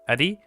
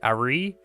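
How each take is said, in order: First: The r is a fast tap, like l or d. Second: The r is a slow English r sound. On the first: The speaker calls it right. "it's faster, and the tongue is in a completely different place" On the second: The speaker calls it wrong. "I'm using an English R to say ari"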